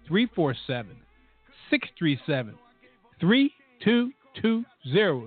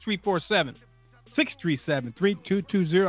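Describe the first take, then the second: First: The number is read more slowly. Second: The number is read at normal speed.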